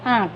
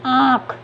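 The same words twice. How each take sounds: First: Said in the usual way. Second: आँख with the long vowel through nose and mouth; आँख said with nasalized aa before the kh. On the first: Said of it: "तो इसे कैसे पढ़ेंगे?". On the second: Shown as a demonstration. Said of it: "नाक और मुख दोनों से होगा".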